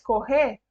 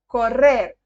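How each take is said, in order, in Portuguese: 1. O R duplo é falado como em português. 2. O R duplo é bem marcado, estilo espanhol. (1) "se a gente fala igual no português" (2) "com o R bem marcadinho"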